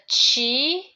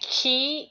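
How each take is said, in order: First: The word begins with a 'ch' sound. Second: The word begins with a 'k' sound. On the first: This is the Chinese reading of the word. "chi is a Chinese way of pronouncing" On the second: This is the Japanese reading of the word. "ki is a Japanese way of pronouncing"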